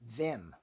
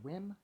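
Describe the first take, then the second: First: The name begins with a V sound. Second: The name begins with a W sound. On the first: "with a V sound" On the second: "I think his first name is pronounced Wim"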